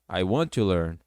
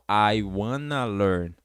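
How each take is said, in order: First: Want and to are said as separate words. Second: Want and to merge into one word, wanna.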